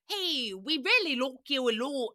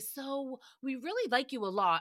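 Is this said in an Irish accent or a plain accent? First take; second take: Irish; plain. First: It is said in an attempted Irish accent. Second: It is said in the speaker's ordinary accent.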